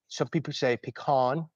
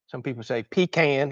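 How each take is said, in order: First: Pecan is said the non-Southern way. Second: Pecan is said the Southern way.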